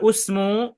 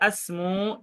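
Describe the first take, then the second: First: The word begins with a u vowel. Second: The word begins with an a vowel. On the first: "Jadi tidak usmu" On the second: "atau tidak asmu"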